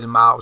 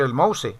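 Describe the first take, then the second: First: Mouse is said with an English pronunciation. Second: Mouse is said with a Spanish reading. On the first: This is the word's own foreign pronunciation. "el mouse se pronuncia" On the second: A speaker may say a foreign word in their own language. "como yo hablo español, yo también le puedo decir el mouse"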